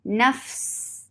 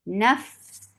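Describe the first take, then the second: Both takes have the same delivery.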